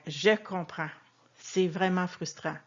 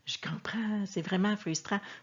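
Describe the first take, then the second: First: The phrase is said slowly with weighed words. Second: The phrase is said quickly and flatly. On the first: The speaker sincerely shares the feeling. The speaker calls it right. "si on pèse un peu nos mots, si on ralentit notre débit" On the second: The speaker does not really mean it. The speaker calls it wrong. "on ne dit pas ça"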